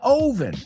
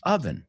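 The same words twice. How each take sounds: First: The first vowel sounds like 'oh'. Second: The first vowel sounds like 'uh'. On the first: The speaker calls it wrong. "hay una O. En un mundo lógico se diría oven, pero no es un mundo lógico" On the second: The speaker calls it right. "Oven, oven, ah, ah"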